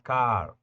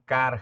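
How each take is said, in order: First: The vowel is held a little longer. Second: The vowel is said short, Spanish style. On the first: The speaker calls it right. "Es car ... Alargamos un poco la vocal A" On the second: The speaker calls it wrong. "Evidentemente no son igual a decir car"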